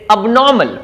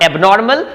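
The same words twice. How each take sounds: First: "abnormal" as ub-NAW-mul, r dropped; correct pronunciation. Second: "abnormal" with "ay" at the start and sounded r; wrong pronunciation. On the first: Teacher correcting for learners, "abnormal" as ub-NAW-mul. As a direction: slowly say "abnormal" with a weak first vowel. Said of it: "is abnormal". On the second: Teacher contrasting for learners, mistaken "abnormal" as ayb-NOR-mal. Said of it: "not abnormal". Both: Shown as a demonstration.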